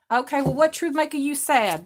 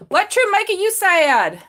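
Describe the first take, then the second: First: Said in the usual way. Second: High, loud, slow "truth" stressed; a mock-dramatic "What truth making you sad?"; emphatic repeat. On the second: Shown as a demonstration. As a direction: ask again, leaning hard on "truth". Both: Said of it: "repeats question bigger".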